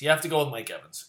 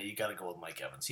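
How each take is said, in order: First: Fast, firm insistence on "have"; insisting. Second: Quiet, quick throwaway line; muttered aside. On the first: The picker insisting to viewers on Mike Evans, stressing "have". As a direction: lean hard on "have", quick and certain. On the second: The fantasy picker first mumbling his Mike Evans pick, quietly. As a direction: toss it off under the breath. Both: Real, not acted.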